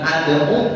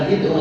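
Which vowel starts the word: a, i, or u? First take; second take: a; i. First: The word begins with an a vowel. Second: The word begins with an i vowel. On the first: "Bukan ad'u" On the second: "bukan id'u"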